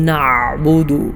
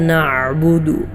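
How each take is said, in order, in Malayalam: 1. മധ്യത്തിലെ ഐൻ ശബ്ദം ശക്തിയോടെ, വളരെ കട്ടിയായി ഉച്ചരിക്കുന്നു. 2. മധ്യത്തിലെ ഐൻ ശബ്ദം വ്യക്തമാണ്, പക്ഷേ നിശ്ചലമായി പിടിക്കുന്നു. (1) "ഐനിനെ ശക്തമായി വളരെ കട്ടിയോടുകൂടെ ഉച്ചരിക്കാറുണ്ട്" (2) "ശരിയായ സ്വഹീഹായ രൂപത്തിലുള്ള ഉച്ചാരണം"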